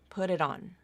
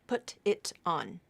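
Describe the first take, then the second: First: The T is a quick tongue flap, smoothly linked. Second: The T is a crisp, fully released stop. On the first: The speaker calls it right. "they're going to put in the flap there" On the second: The speaker calls it wrong. "It's not very likely that a native speaker is going to use the true T"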